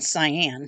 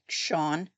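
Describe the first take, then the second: First: The name sounds like the word cyan. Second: The name sounds like the name Sean. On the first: The speaker calls it wrong. "I've been pronouncing her name wrong. So I was saying cyan" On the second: The speaker calls it right. "but apparently it's more like Sean"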